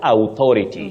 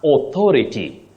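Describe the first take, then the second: First: The first vowel is a gliding ow sound. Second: The first vowel is a plain aw sound. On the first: The speaker calls it wrong. "not authority" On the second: The speaker calls it right. "So you say O, not ow"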